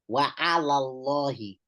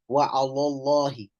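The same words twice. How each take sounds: First: The first l sound is kept clear and light. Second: The first l sound is made thick and heavy. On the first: The speaker calls it right. "You still have to keep the the lam, the first lam clear" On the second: The speaker calls it wrong.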